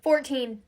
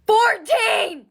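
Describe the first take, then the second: First: Said in the usual way. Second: Fourteen! shouted much higher and louder; shocked shout. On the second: Real, not acted. Vlogger shouting her cuss-word total of fourteen in disbelief.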